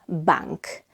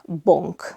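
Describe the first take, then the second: First: The vowel is very open, like English A. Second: The vowel is closed, like an O sound. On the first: "it's not bank" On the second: "It's also not bonk"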